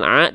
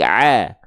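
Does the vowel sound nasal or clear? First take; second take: nasal; clear. First: The vowel is nasal, voiced through the nose. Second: The vowel is clear, voiced through the mouth. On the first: The speaker calls it wrong. "Jangan sampai pakai suara sengau" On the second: The speaker calls it right. "tapi a"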